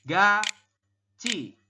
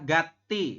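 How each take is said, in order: First: The middle consonant is a ch sound. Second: The middle consonant is a plain t sound. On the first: The speaker calls it right. "dibacanya adalah gaci seperti ini" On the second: The speaker calls it wrong. "secara tulisan Anda mungkin akan membacanya adalah gati"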